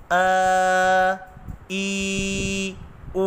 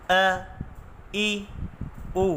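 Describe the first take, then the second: First: ا، ای، او dragged out long, the way not to read them; wrongly stretched vowels. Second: ا، ای، او said short and gently; soft correct vowels. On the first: Teacher showing students the wrong, stretched reading. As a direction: stretch ا، ای، او as a warning example. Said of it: "کھینچنے سے مراد". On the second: Teacher showing students the soft, correct reading. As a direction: give ا، ای، او softly, without stretching. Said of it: "نرمی کے ساتھ ادا کرنا ہے". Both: Shown as a demonstration.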